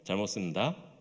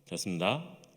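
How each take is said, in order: First: Whole syllables are dropped from the middle. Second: The phrase is slurred into a few syllables. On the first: A mid-ranked soldier says it. "상병이 되면은" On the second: A senior soldier says it. "병장이 되면은"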